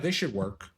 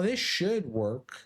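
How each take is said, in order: First: It sounds firm, strong and confident. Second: It sounds hesitant, weak and unsure. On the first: The outcome is expected with certainty. The speaker calls it right. "one of those is strong and confident" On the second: The outcome is doubtful. The speaker calls it wrong. "one of those is iffy and weak"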